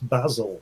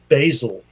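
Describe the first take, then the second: First: It is said with a British pronunciation. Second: It is said with an American pronunciation. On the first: The speaker calls it right. "and it's basil" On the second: The speaker calls it wrong. "you say basil"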